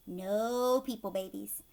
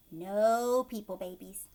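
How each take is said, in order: Both takes have the same delivery.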